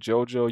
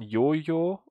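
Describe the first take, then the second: First: The name is said with an English pronunciation. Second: The name is said with a German pronunciation. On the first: "the English pronunciation" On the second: "the German pronunciation"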